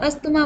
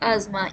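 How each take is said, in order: First: The middle is pronounced with an 'sth' sound. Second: The middle is pronounced with a 'z' sound. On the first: The speaker calls it wrong. "इसको अस्थमा बोलते हैं ना, ये real में अस्थमा नहीं होता है" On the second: The speaker calls it right. "इसको बोलना चाहिए आजमा"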